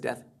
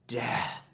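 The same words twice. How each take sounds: First: The word is mumbled with a clipped final th. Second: The word is enunciated; the final th fades out. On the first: The word carries little meaning. The speaker calls it wrong. "I say it like this" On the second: The word makes you feel its weight. The speaker calls it right. "that T H sound at the end just fades away"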